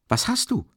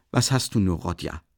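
First: High, startled cry; alarmed call. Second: Understated suspicious question, dropping on the name; mildly suspicious. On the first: Razumikhin stopping his friend by the arm, alarmed call. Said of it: "rief Rasumichin". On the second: Sister questioning her brother, mildly suspicious. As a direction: ask with a touch of mistrust. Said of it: "fragte Awdotja Romanowna misstrauisch". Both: A narrator's reading.

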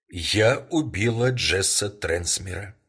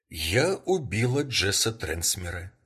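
First: Slow, louder, firm "я убила Джесса Трансмера". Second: "Я убила Джесса Трансмера" repeated evenly at normal level; calm repeat. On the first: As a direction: lay it down slowly and firmly, stress on "убила". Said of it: "твёрдым голосом произнесла". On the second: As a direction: repeat it calmly, no push on "убила". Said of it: "всё так же спокойно повторила". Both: Acted.

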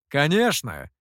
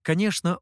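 First: Insist, «Конечно!» with conviction; decisive exclamation. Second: Said in the usual way. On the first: A narrator's reading. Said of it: "решительно воскликнул Гуэй". (решительно воскликнуть «Конечно!»)

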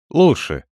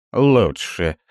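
First: Curt grumbled word; "Лучше" grunted out reluctantly. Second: Mocking gruff voice. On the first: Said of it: "буркнул я". (буркнул) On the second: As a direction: parody his gruff "Лучше". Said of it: "грубым голосом передразнила меня она". (грубым голосом, передразнивая) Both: A narrator's reading.

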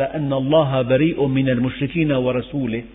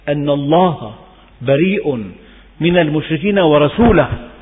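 First: ورسوله read wa-rasulihi with i, as if joined to المشركين; wrong reading. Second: ورسوله read wa-rasuluhu with u; correct reading. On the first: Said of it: "بعضهم قرأها". (قراءة ورسوله بالكسر خطأً) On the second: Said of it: "فرق كبير جدًا". (قراءة ورسوله بالضم صحيحة) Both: Shown as a demonstration.

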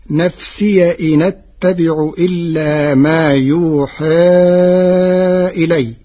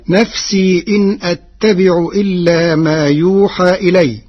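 First: نفسي read as nafsiya, and إن أتبع run together as inattabi'u; Warsh reading. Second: Said in the usual way. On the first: Shown as a demonstration. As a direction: open the ya of نفسي and carry the hamza's vowel into the n. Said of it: "بفتح ياء الإضافة مع نقل حركة الهمز". (قراءة ورش: نفسيَ إنَ اتّبع بنقل الحركة) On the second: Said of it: "قرأ ورش كلمتي "نفسي" إن".

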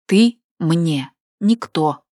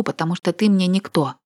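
First: «Ты мне никто» slow, each word hit separately and louder; every word chiselled. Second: Said in the usual way. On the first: A narrator's reading. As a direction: bite out «Ты», «мне», «никто» one by one, slowly. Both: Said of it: "отчеканила каждое слово".

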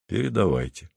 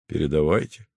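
First: Cool and curt, no warmth; Paul coldly allows the transmission; cold reply. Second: Said in the usual way. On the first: A narrator's reading. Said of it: "холодно сказал Поль". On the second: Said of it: "сказал Поль".

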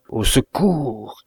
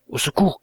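First: Drawn-out call, falling at the end; stronger cry for help. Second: Short, higher-pitched call rising at the end; understated narrated cry, quick and high; mild cry for help. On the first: Wounded man calls again to the fleeing narrator, long drawn-out cry. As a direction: stretch the narrated cry out slowly, pleading for rescue. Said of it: "le cri était plus fort". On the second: Stranger calls out to the fleeing narrator, mild high cry for help. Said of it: "cria-t-on". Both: A narrator's reading.

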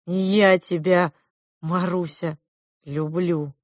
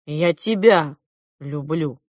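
First: Slow, tender confession. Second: Emphatic start, falling back at the end; defiant declaration. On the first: Prince confessing love to Marusya, tender. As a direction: linger gently over each word. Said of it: "нежно произнёс моё имя принц". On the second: Klop ignoring his sister's jibe, defiant declaration. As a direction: declare it regardless of jeers. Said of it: "наплевав на слова сестры". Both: A narrator's reading.

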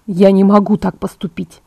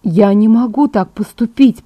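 First: Firm refusal. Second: Slow, wavering-in-resolve refusal; less convinced refusal. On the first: Edward rejects leaving Bella, flatly refusing. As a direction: shut the idea down, evenly and firmly. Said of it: "отрезал Эдвард". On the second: Edward repeats himself as Bella wins him over, less convinced. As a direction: draw it out as resistance weakens. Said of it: "хотя не так убеждённо". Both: A narrator's reading.

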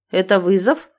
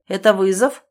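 First: Mildly derisive question; mocking. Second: Mock-surprised question, lifting at the end; feigned surprise. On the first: David taunts the challenger, mocking. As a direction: taunt him lightly with the question. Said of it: "снова насмешливо уточнил Дэвид". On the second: David baits the retreating man, feigned surprise. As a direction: ask as if mildly astonished. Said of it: "делано удивился Дэвид". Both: A narrator's reading.

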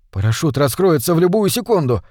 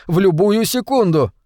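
First: Mildly raised pitch, convincing himself; self-persuasion. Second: Higher, more insistent pitch on the whole phrase; desperate self-persuasion. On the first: (сдержанно убеждая самого себя) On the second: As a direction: convince yourself, with rising desperation. (с отчаянием убеждая себя, высоким голосом) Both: A narrator's reading. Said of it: "убеждал себя Оушен".

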